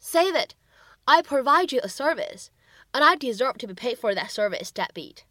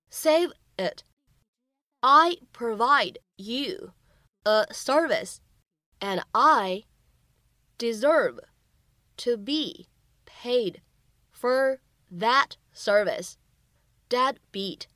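First: Said in the usual way. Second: Very slow, word by word; slow teaching read of the scene line. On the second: Shown as a demonstration. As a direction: spell out each word slowly for learners. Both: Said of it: "需要注意哪些发音技巧".

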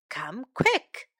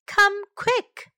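First: Said in the usual way. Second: High, urgent call for help. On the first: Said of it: "teacher models the line again". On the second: Shown as a demonstration. Teacher modelling an urgent cry for help. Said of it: "teacher models a cry for help".

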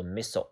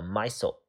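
First: Missile with first syllable like "miss"; short-i reading. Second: Missile with first syllable like "my"; long-i reading. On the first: Teacher wonders aloud whether missile is read "MISS-ul". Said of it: "还是读missile". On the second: Teacher unsure of the reading offers missile as "MY-sul". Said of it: "我也不知道它怎么读". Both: Shown as a demonstration.

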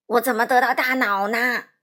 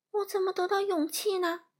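First: Loud, wailing lament; crying out. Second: High, plaintive question; worried Lion. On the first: Scarecrow asking about his brain, crying out loudly. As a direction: wail the question at full volume. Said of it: "稻草人哭喊着说". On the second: Lion asking about his courage, high and worried. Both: A narrator's reading.

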